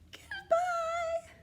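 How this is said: It is said in a very high voice.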